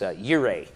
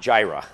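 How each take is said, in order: First: The word begins with a Y sound. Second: The word begins with a J sound. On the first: The speaker calls it right. "It's Yireh in Hebrew. It's Yireh" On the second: The speaker calls it wrong. "not Jireh"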